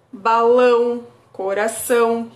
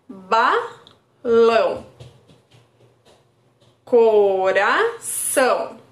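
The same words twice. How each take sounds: First: Said in the usual way. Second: Very slow, each word drawn out with a falling end; slow rhyme demo. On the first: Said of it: "o que que é igual?". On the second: Shown as a demonstration. Therapist drawing out the words for a child, very slow. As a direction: stretch "Balão" and "coração" so the shared "ão" stands out. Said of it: "Aí a criança vai identificar".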